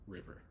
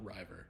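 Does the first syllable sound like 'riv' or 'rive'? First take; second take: riv; rive. First: The first vowel is short, like 'riv'. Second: The first vowel is long, like 'rive'. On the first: The speaker calls it right. "It's just river" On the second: The speaker calls it wrong. "not river"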